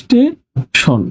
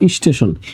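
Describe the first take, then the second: First: The word starts directly with the s sound. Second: An extra vowel sound comes before the s.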